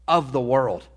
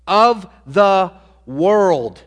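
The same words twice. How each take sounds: First: Said in the usual way. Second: Slow, weighty "Of the world"; emphatic repeat. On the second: Shown as a demonstration. Preacher repeating for congregation, slow and emphatic. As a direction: drag every word out to land it.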